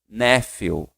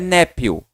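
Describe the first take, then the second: First: The ph is pronounced like an f sound. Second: The ph is pronounced like a p sound. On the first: The speaker calls it right. "Ele tem o som do quê? De F" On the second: The speaker calls it wrong. "Não é nephew"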